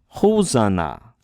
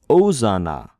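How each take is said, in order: First: The word starts with an audible h sound. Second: The word starts with a vowel, no h. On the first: The word has a rough breathing mark. The speaker calls it right. "The h sound coming from the rough breathing mark" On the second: The word has a smooth breathing mark. The speaker calls it wrong. "If it were a smooth breathing mark, it'd be Ozana"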